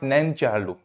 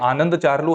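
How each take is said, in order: First: The opening 'A' sound is dropped. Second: The opening 'A' sound is pronounced. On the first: This is a memory trick for an 'N' word. "ए को थोड़ा silent करके बोल सकते हो" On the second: This is the person's real name. "आनंद चार्लू है वैसे"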